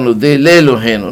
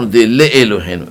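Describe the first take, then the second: First: The aleph is silent, merged into the prefix. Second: The aleph vowel is pronounced after the prefix. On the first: The speaker calls it right. "אתה אומר" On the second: The speaker calls it wrong. "לא אומר"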